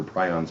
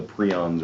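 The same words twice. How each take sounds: First: "prions" said as PRY-ons; alternate pronunciation. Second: "prions" said as PREE-ons; alternate pronunciation. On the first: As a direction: say "prions" to rhyme with "try-ons". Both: Shown as a demonstration. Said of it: "however it's pronounced".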